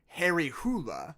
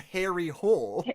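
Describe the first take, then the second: First: The surname has two syllables, like 'hoo-la'. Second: The surname has one syllable, like 'hole'. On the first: "the Norwegian pronunciation of that name would be" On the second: "when translated into English, his name becomes"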